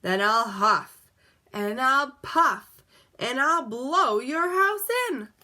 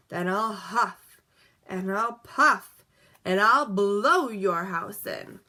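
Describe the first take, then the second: First: Slow, louder wolf threat building higher; wolf threatening the pig at his door. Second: Slow, a bit louder, pitch unchanged; understated wolf threat; wolf threatening the brick house; mild wolf threat. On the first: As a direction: drag out each threat, growing bigger. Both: A narrator's reading. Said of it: "said the wolf".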